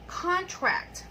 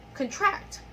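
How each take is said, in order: First: "Contract" high on the first syllable, falling after; "Contract" as a noun, front-stressed. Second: "Contract" rising high on the second syllable; "Contract" as a verb, back-stressed. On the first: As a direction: punch the full first vowel of "Contract". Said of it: "we stress the first syllable". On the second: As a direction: reduce the start of "Contract", hit the end. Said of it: "stressing the second syllable". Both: Shown as a demonstration.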